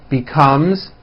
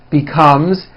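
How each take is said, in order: The two takes are said the same way.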